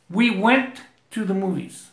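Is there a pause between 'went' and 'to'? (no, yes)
yes. There is a pause between went and to. The speaker calls it wrong. "pausé ahí"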